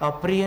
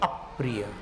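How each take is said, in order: First: The first syllable is said without stress. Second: The first syllable is said with stress. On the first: The speaker calls it wrong. "अप्रिय नहीं बोल रहे हैं" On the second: The speaker calls it right. "अप्रिय स्वराघात है"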